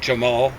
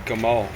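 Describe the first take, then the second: First: The name begins with a soft J sound. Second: The name begins with a hard G sound. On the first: This is how the name is commonly said today. "they pronounce it like a J" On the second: This is the original form of the name. "in the original it'd be Gamal"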